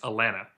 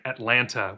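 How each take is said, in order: First: Neither T sound is pronounced at all. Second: Both T sounds are clearly pronounced. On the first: The speaker is an older local. "There's there's no T's" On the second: The speaker is not from the South. "you end up pronouncing it Atlanta, which is monstrous and incorrect"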